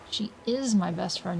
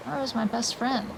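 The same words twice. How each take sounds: First: Slow, with "is" stressed. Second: Said in the usual way. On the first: Acted. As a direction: lean hard on "is". Restated with weight on is.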